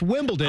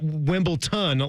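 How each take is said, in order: First: The middle consonant sounds like a D. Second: The middle consonant sounds like a T. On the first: The speaker calls it right. "It's a D" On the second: The speaker calls it wrong. "it's not Wimbledon like Anthony is saying"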